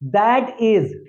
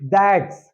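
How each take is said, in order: First: It is said as two full words. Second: It is said as one contracted syllable.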